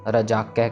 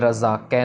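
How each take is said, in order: First: The middle consonant is a 'j' sound. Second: The middle consonant is a 'z' sound. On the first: The speaker calls it right. "रजाकै कहना है जज्जे के साथ" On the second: The speaker calls it wrong. "इसको भी हमने रजाकै नहीं कहना"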